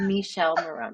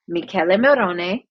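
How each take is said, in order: First: The name sounds like the English name Michelle. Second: The name is said with Italian vowels and syllables. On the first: The speaker calls it wrong. "I've been saying" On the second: The speaker calls it right. "name is pronounced"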